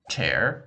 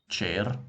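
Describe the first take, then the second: First: It is said with an English accent. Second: It is said with a Russian accent. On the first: "chair in English" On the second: "chair in Russian"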